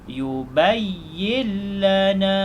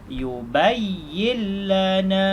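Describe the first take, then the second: Both takes have the same delivery.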